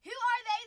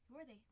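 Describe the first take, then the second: First: Loud, high challenge; mock outrage. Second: Said in the usual way. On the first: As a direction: demand it in playful indignation.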